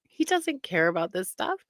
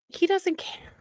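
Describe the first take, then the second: First: Said in the usual way. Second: Breathy whisper of He doesn't care, pitched higher; whispered aside. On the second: Shown as a demonstration. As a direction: hush it like a secret aside. Contrasting whispered and plain takes.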